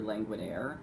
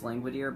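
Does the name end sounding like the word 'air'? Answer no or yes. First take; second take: yes; no. First: The name ends sounding like 'languid air'. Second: The name does not end like 'air'. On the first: The name is a pun on a languid air. The speaker calls it right. "it's actually Langwidere, as in a languid air" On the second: This is how a modern reader would say it. The speaker calls it wrong. "by modern pronunciation, it probably is"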